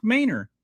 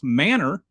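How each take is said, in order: First: "Manor" said as "MAY-ner"; Texas pronunciation. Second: "manor" said like "manner"; standard pronunciation. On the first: Explaining the Texan town name, "Manor" pronounced "MAY-ner". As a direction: say "Manor" with a long a, like "main-er". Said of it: "in Texas, it is pronounced". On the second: Explaining how the rest of the world says it, "manor" as "manner". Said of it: "rest of the civilized world calls". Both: Shown as a demonstration.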